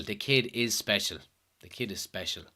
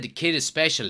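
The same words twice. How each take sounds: First: Put-on repeating "The kid is special" softer and softer to himself; quiet echo. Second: Said in the usual way. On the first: Shown as a demonstration. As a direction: murmur "The kid is special" twice, fading each time.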